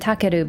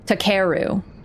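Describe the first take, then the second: First: It is said with even, Japanese-style pitch. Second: It is said with English-style stress. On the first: The speaker calls it right. "But it's closer to takeru" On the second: The speaker calls it wrong. "in English, it just be like"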